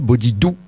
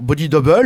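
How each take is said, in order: First: The title ends with the French word 'bleu'. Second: The title ends with the English word 'double'. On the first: "pour la blague, on le dira comme ça" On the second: "quand c'est bien prononcé"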